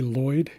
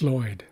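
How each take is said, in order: First: It starts with a plain English L sound. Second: It starts with a voiceless Welsh LL sound.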